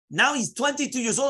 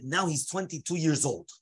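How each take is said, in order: First: Much higher, animated restatement; dramatic retelling. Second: Said in the usual way. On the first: Acted. Teacher dramatizing the sudden turn for students, excitedly. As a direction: heighten it, pitched right up.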